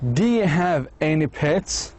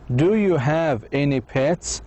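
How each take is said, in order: First: Words run together; 'you' becomes 'ya'. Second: Every word is pronounced fully and carefully.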